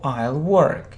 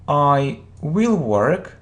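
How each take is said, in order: First: 'Will' is contracted and joined onto 'I'. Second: 'Will' is said in full as its own word. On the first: "or you can use a short form" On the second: "you can say I will work"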